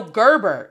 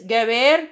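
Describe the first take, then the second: First: Gerber with English er vowels; English pronunciation. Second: Gerber with hard G, eh vowels, stress at the end; Spanish-style pronunciation. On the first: Teacher rejecting the wrong name, Gerber with English er sounds. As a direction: say Gerber like the baby food brand. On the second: Teacher giving the student's real name, Gerber as geh-BEHR. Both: Shown as a demonstration. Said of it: "it still is not no Gerber".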